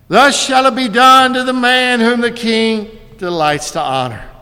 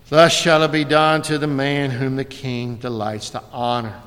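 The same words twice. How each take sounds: First: It is said louder than before. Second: It is said softly in a dejected voice. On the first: The speaker is forced to announce it publicly. "a little bit louder" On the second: The speaker is humiliated and reluctant. "in the most dejected voice possible"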